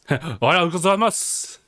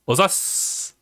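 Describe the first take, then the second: First: The greeting is said in full, every syllable. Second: The greeting is clipped down to one short word. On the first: "the whole like phrasing" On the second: "they keep shortening it up"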